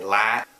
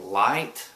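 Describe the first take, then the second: First: The I vowel has an Oklahoma accent sound. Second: The I vowel has a general, non-Oklahoma sound. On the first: "we say light" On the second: "instead of saying light"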